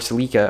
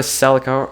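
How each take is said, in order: First: The name is said the non-American way. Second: The name is said the American way.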